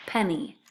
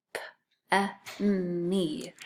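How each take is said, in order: First: Said in the usual way. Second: P-e-n-y as separate sounds: puffed p, short e, held n, "ee"; p-e-n-y, one sound at a time. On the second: Shown as a demonstration. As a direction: sound out p-e-n-y very slowly. Teacher sounds out word for spelling.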